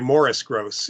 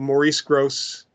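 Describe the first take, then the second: First: The first name sounds like Morris. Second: The first name sounds like Maurice. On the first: The speaker calls it right. "Morris Grosse is the way he pronounced it" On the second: The speaker calls it wrong. "I should say"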